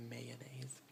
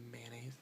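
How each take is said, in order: First: Mayonnaise said in three syllables; may-o-naise. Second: Mayonnaise said man-naise; man-aise. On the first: Speaker showing the longer mayonnaise. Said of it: "instead of mayonnaise". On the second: Speaker showing her own mayonnaise. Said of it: "but I say". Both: Shown as a demonstration.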